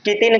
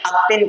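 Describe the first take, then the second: First: A vowel is added between k and t. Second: A vowel is added before the k sound. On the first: "कितिन कहते हैं" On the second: "अक्तिन कहते हैं"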